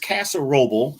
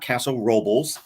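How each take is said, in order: First: The name ends without an s sound. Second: The name ends with an added s sound. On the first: The speaker calls it right. "it's Castle Roble" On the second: The speaker calls it wrong. "not Castle Robles"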